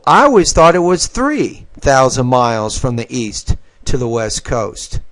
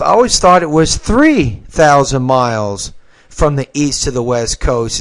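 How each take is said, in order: First: Only three carries the stress. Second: Both three and thousand carry stress. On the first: The speaker calls it right. "probably put it on three" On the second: The speaker calls it wrong. "you probably put stress on both"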